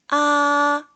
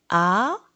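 First: The pitch stays high and level. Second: The pitch rises from mid to high. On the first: "1성은" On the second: "2성은"

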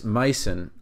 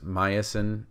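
First: It is said without an extra inserted vowel. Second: It is said with an extra inserted vowel.

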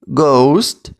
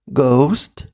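First: The word is said a bit more quietly. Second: The word is said quieter still. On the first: "тихіше" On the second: "тихіше"

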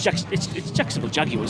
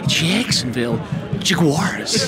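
First: Jaguars is said without a sneeze-like sound. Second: Jaguars is said with a sneeze-like sound. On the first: "But it's" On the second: "is a little bit like a sneeze, because I go"

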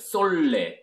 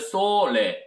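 First: The middle consonant is a long double L. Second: The middle consonant is a single short L. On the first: The speaker calls it wrong. "두 개가 들어가면 솔레" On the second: The speaker calls it right. "L이 하나가 들어가면 솔레"

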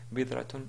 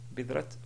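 First: The word ends in a tun sound. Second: The word ends in a clear t sound. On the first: "Bidratun à la limite" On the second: "Bidrat, ben alors là, vraiment, c'est pas correct"

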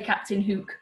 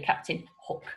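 First: Hook has a short oo vowel. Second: Hook has an oh-like vowel. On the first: This is how the word reads. "we don't say Captain Hook" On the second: This is how people say it locally. "we say Captain Hook. So sometimes the short oo sound, we change to an oh where we live"

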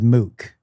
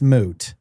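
First: The word ends with a k sound. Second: The word ends with a t sound. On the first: The speaker calls it wrong. "your mom used to say that point is mook" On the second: The speaker calls it right. "hey, it's moot"

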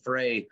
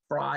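First: The name rhymes with 'day'. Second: The name rhymes with 'die'. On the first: The speaker calls it wrong. "if I pronounce his name Frey once in a while" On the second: The speaker calls it right. "Fry is actually the correct pronunciation"

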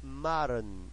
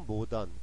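First: The word is said with English sounds. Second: The word is said with Korean loanword sounds. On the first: "근데 영어 발음은요" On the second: "우리가 알고 있는 모던이죠"

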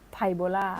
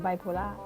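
First: The word begins with the syllables phai-bo. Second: The word begins with the syllables bai-pho. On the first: The speaker calls it wrong. "ปกติแล้วชอบพูดผิดไปเลยนะ" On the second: The speaker calls it right. "พูดถูกไหม"

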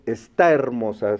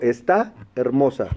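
First: The final a and initial e run together. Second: The two words are separated by a break. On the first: The speaker calls it right. "yo digo está hermosa, se junta la A y la E" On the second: The speaker calls it wrong. "no corto, no digo"

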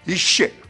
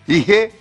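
First: The consonant is a full French sh. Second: The consonant is a light h.

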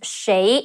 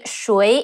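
First: The word is said in its casual pronunciation. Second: The word is said in its formal pronunciation. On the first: "谁 is more casual" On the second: "谁 is more formal"

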